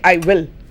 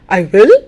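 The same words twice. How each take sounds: First: The tune stays flat without a questioning lift. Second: The tune sounds questioning and exclaiming, not flat. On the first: The speaker simply agrees to come. "It's flat" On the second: The speaker doubts being expected to come. "you're exclaiming. Do you think I will?"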